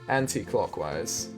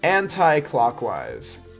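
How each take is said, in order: First: It is said in a British accent. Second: It is said in an American accent.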